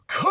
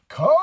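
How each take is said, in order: First: Long, much higher mock Shatner scream of "Khan!"; hammed-up imitation of a legendary shout; Shatner's Khan yell. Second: "Khan!" as a short, louder, higher rising cry, less epic; a clipped imitation of Quinto's yell; a lesser, quicker copy of the famous yell. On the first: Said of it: "monumental moment of Shatner being like". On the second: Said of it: "Zachary Quinto goes".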